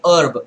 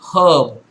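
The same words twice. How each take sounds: First: The word begins without any H sound. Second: The word begins with an audible H sound. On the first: This is the US pronunciation. "in U S it would rather be herb, where the H uh, is not, it does not make the her sound" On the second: This is the Indian English pronunciation. "when it comes to Indian English, H E R B will be pronounced herb"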